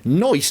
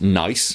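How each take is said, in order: First: The vowel is an 'oy' sound, like 'noice'. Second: The vowel is the plain 'eye' sound. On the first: "some British accents turn it into nice" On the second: "everyone knows it's nice"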